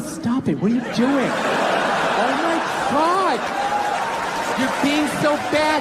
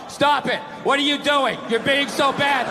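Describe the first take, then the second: First: It is said in a playful, teasing tone. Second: It is read in a flat, dull tone.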